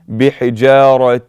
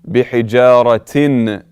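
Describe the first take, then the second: First: The final n sound of the ending is dropped. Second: The final n sound of the ending is pronounced. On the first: The speaker calls it right. "you do not pronounce it" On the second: The speaker calls it wrong. "you cannot say بحجارة. This is incorrect"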